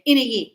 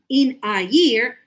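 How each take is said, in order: First: "in a year" run together as one word; words linked. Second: "In a year" slow and louder, words apart. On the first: Teacher showing linked speech, words run together. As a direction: slide straight through "in a year" without gaps. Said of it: "we link the words together". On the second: Teacher showing unnatural careful speech, word by word. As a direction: separate each word of "In a year". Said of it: "we don't speak like that". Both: Shown as a demonstration.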